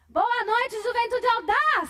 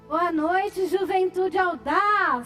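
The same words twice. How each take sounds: First: It is said with more energy. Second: It is said with ordinary energy.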